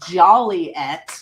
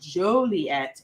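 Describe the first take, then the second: First: The name is said in the nonlocal way. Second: The name is said in the local way. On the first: This is the banned mispronunciation of the city. The speaker calls it wrong. "it is illegal to say Joliet" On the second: This is the official way to say the city. The speaker calls it right. "instead of the proper Joliet"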